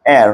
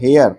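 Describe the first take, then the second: First: The word starts with a vowel sound. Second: The word starts with an h sound. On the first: The speaker calls it right. "इसको हेयर नहीं पढ़ते हुए इसको हम एयर" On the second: The speaker calls it wrong. "तो आप सोचेंगे हा का साउंड आ रहा है"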